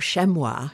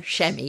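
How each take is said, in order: First: The word is said with a French pronunciation. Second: The word is said in an Australian accent. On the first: "if you want to give it the yes. French" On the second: "if you're an Australian"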